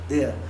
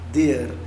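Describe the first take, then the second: First: The r sound is pronounced without force. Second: The r sound is pronounced with force. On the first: "हम आर पढ़ते हैं but आर में मोस्टली जोर नहीं होता" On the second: "आर को जोर"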